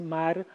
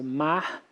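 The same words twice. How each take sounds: First: The final R is not aspirated. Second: The final R is aspirated, like a breathy h.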